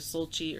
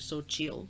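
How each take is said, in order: First: The name ends without a final L sound. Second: The name ends with a final L sound.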